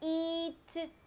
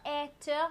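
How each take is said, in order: First: The vowel is said with a long sound. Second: The vowel is said with a short sound. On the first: The speaker calls it right. "we say the long sound" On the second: The speaker calls it wrong. "not the short sound"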